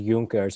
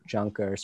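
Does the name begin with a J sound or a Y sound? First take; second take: Y sound; J sound. First: The name begins with a Y sound. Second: The name begins with a J sound. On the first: The speaker calls it right. "Germans say their J's as Y. So just pronounce it as Junkers" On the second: The speaker calls it wrong. "instead of Junkers"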